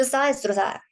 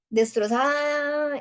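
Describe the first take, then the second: First: Said in the usual way. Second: "destrozada" stretched out, pitched up; 1 destrozada repeated slowly, higher. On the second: Real, not acted. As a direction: lean hard on "destrozada", drawn out. Repite destrozada con énfasis. ("destrozada" alargada y más aguda)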